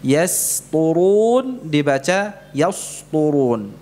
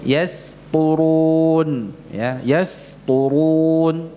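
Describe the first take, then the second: First: Yasturun with the plain s of the wrong reading, drawn out slowly. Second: Yasturun with a clean sin, slow and stretched; correct yasturun. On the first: Teacher shows the wrong yasturun to the class. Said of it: "Ini tidak benar". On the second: Teacher models the correct yasturun for students. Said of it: "Yang benar dengan sin". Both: Shown as a demonstration.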